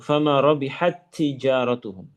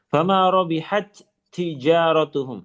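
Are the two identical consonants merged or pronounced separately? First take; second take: merged; separately. First: The two t sounds merge into one doubled sound. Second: The two t sounds are pronounced separately. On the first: The speaker calls it right. "Jadikan ada satu" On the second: The speaker calls it wrong. "Kalau dipisah bagaimana? Seperti ini"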